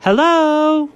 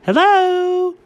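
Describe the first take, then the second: First: High British hello; lightly done British hello; British accent. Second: Higher failed British hello; a poor attempt at a British accent; bad British accent. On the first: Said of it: "go ahead, you can use it". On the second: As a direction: try the British accent and miss. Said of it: "That wasn't even close". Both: Shown as a demonstration.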